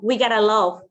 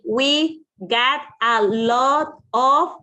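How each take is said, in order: First: The words run together into a linked form. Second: Each word is said separately and clearly. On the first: "they say we got a lot" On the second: "Instead of say we got a lot of"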